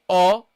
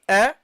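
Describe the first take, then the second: First: The vowel is heavy, with rounded lips. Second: The vowel is light, with lips spread. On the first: The speaker calls it wrong. "don't say o" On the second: The speaker calls it right. "Go light. ... stretch your lips"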